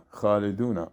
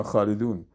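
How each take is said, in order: First: "خالدونا" read khaliduna, ending in an open "na"; kha-li-du-na for "خالدونا"; full-vowel ending. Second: "خالدون" read khalidun, closed on n; kha-li-dun, no final vowel on "خالدون"; stopping form. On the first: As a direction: sound the final a of "خالدونا". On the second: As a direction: stop on the n of "خالدون". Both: Shown as a demonstration. Teacher shows full and stopping forms.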